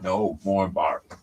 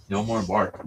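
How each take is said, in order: First: No more bark drawn out slowly in a put-on voice; a slow, gentle telling-off for a barking dog; slow dog scolding. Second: Said in the usual way. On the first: Real, not acted. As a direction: stretch each word to settle the dog.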